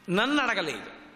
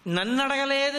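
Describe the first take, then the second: First: Said in the usual way. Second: నన్ను pitched higher, అడగలేదు ending on an indignant rise; wounded ego. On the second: Shown as a demonstration. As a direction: say నన్ను అడగలేదు like a slighted man whose pride is hurt. (అహంకారంతో ఎత్తైన స్వరంలో నన్ను అడగలేదు) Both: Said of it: "అహంకారం ఎక్కడో పొటమరించిందని".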